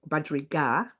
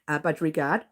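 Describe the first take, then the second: First: The word ends without any 'd' sound. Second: The word ends with an added 'd' sound. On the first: It is the real name of the bird. The speaker calls it right. "Budgerigar, not budgerigard" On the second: It is a joke name for a watchful bird. The speaker calls it wrong. "I call them guard for a joke"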